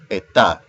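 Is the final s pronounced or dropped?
dropped. The final s is dropped.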